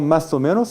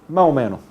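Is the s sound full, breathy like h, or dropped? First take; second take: full; dropped. First: The s sound is fully pronounced. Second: The s sound is dropped entirely. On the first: "no se pronuncia esta palabra como más o menos" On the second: "O simplemente se elimina este fonema"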